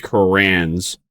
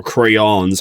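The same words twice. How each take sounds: First: "crayons" squashed toward "crans"; alternate pronunciation. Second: "crayons" opened out as "cray-ons"; alternate pronunciation. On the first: Streamer joking about preschool drawing, "crayons" said as "crans". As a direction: say "crayons" run together, like "crans". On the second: Streamer offering another pronunciation, "crayons" said as "cray-ons". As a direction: say "crayons" in two clear parts, "cray-ons". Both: Shown as a demonstration. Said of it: "however you wanna pronounce it".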